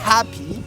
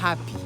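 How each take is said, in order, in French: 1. Le mot commence par un fort jet d'air. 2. Le mot commence par un léger souffle d'air. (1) "Il ne s'agit pas de se vider carrément les poumons non plus" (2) "mais juste un peu d'air"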